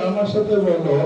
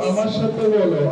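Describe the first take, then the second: The two takes are said the same way.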